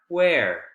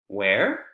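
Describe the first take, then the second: First: The pitch falls at the end. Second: The pitch rises at the end. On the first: It asks for new information. "with W H questions that have falling intonation at the end, you're requesting for information" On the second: It asks for the information to be repeated. "With W H questions that have rising intonation at the end, it's a request to please repeat"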